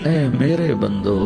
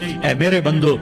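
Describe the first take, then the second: First: It is said in a warm, tender tone. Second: It is said in a plain, unloving tone. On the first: It carries a mother's tender love. The speaker calls it right. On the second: It is only a neutral form of address. The speaker calls it wrong.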